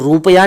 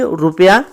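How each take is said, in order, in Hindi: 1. पहला स्वर दीर्घ है। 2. पहला स्वर ह्रस्व है। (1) "रुपया नहीं कहेंगे" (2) "बल्कि रुपया कहेंगे, छोटी ऊ"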